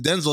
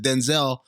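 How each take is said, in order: First: Denzel as DEN-zul, stress up front; first-syllable stress. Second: Denzel as den-ZELL; second-syllable stress. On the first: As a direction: say Denzel with a weak, swallowed second syllable. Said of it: "His mom pronounces it Denzel". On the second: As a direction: say Denzel with a full, clear "zell" at the end. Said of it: "people just said Denzel". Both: Shown as a demonstration.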